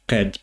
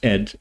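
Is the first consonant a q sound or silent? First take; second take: q sound; silent. First: The word starts with a clear q sound. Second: The word starts without the q sound.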